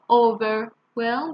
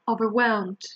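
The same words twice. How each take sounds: First: The stress is on the first syllable. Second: The stress is on a later syllable. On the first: The speaker calls it wrong. "many people think that we stress the first syllable" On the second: The speaker calls it right. "It's actually the second one"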